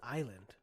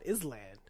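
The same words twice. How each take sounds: First: It is said in the everyday spoken way. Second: It is sounded out as it is spelled. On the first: This is how people actually say the word. The speaker calls it right. "How is it Island?" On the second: This is how the word sounds when read silently. The speaker calls it wrong. "I read Island always as Island since I was a little kid"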